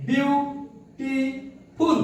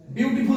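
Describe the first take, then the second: First: "beautiful" very slowly as বিউ, টি, ফুল; three separated beats on "beautiful", long gaps between; split into syllables. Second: Said in the usual way. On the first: Shown as a demonstration. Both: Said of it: "তিনটি".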